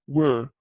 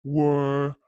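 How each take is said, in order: First: "were" cut short, no stretching of the vowel; short clipped were. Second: "were" with the vowel drawn out long; stretched were. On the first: Teacher showing the short form in long questions, clipped were. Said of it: "أختصر زي ما أخذنا was و were". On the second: Teacher showing short answers with stretched vowel, drawn-out were. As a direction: let "were" linger at the end. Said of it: "فحأمد". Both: Shown as a demonstration.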